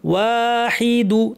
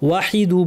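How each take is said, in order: First: The first vowel is drawn out long. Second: The first vowel is said short. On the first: The speaker calls it right. "ওয়া ওয়া ওয়া ওয়া" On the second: The speaker calls it wrong. "ওয়াহিদু বলবেন না"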